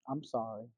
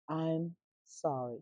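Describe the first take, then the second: First: It is said flatly, without real feeling. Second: It is said warmly, with real feeling. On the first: The apology is not really meant. The speaker calls it wrong. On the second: The apology comes from the heart. The speaker calls it right.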